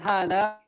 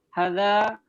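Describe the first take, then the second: First: The first vowel is held long. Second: The first vowel is kept short. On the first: The speaker calls it right. "kita kalau mengucapkan hada ... ada dua harokat" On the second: The speaker calls it wrong. "bukan hada, bukan gitu"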